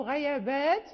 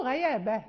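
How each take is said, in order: First: غيابات read in the plural, ending on a clear t; the plural form غيابات, stopped with t. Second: غيابة read in the singular, no long -āt ending; the singular form غيابة, not غيابات. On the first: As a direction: say غيابات with long -āt and stop on the t. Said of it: "هناك من يقرأ غيابات". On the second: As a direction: say غيابة as one, ending short. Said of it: "وهناك من يقرأ غيابة". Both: Shown as a demonstration.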